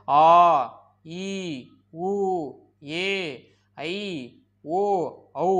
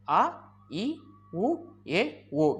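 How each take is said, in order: First: "ஆ, ஈ, உ, ஏ, ஐ, ஓ, ஔ" each held long; long vowels. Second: "அ, இ, உ, ஏ, ஓ" each cut short, with a pause after; short vowels. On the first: Teacher showing which seven sound long, drawn-out vowels. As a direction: stretch every vowel, pausing between them. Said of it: "எந்த ஏழும் நீண்டு ஒலிக்குது". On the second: Teacher showing which five sound short, brief vowels. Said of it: "எந்த ஐந்தும் குறுகி ஒலிக்குது". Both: Shown as a demonstration.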